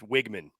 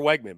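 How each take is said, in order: First: The first vowel sounds like 'ih'. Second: The first vowel sounds like 'eh'. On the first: The speaker calls it right. "they pronounce it said it's Wigman" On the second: The speaker calls it wrong. "I used to say Connor Wegman"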